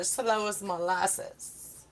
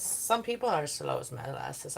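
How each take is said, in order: First: Dragged slow like molasses; slow drawl. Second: Said in the usual way. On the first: Shown as a demonstration. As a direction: stretch every word slowly.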